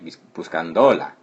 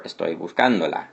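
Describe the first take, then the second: First: Buscándola with the stress moved off CÁN, wrong. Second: Buscándola with the stress on CÁN. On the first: Teacher demonstrating the wrong way, stress misplaced. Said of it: "so it'd be like". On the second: Teacher showing students the accented syllable, stress on CÁN. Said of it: "we have to put this accent". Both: Shown as a demonstration.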